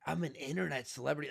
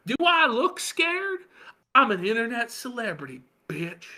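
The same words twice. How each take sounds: First: Mild quick deadpan read; flat confused reading; normie reading. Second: Mock award-winning self-importance; mocking Ralph. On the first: Retold or imitated. Imagining a normie reading the line, mildly deadpan. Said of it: "a normie reading that going". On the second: Host awarding Ralph's quote, high mocking voice. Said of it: "least self-aware statement of the year".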